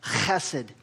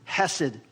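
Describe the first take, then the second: First: It begins with a rough, throat-clearing sound. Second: It begins with a soft, plain h sound. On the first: The speaker calls it right. "You really have to almost like clear your throat when you say it" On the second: The speaker calls it wrong. "which is not really the right way you pronounce it"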